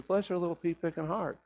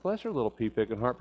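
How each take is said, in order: First: Higher and softer, kindly forgiving; a soft, high, tender quote of a forgiving grandmother; sweet granny blessing. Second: Said in the usual way. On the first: Retold or imitated.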